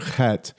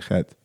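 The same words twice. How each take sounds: First: The first sound is a strong throat scrape. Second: The first sound is a faint, cough-like breath. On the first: This is how it is taught in the West. "Pretend like you're getting something out of your throat" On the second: This is how it is said in Israel. "in Israel, it's real subtle. You almost can't hear it. It's like a cough almost"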